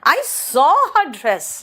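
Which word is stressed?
saw. The stress falls on the word saw. "सॉ पर जोर दिया।"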